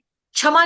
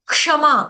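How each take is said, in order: First: It begins with a 'chh' sound. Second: It begins with a 'ksh' sound. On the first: The speaker calls it wrong. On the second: The speaker calls it right.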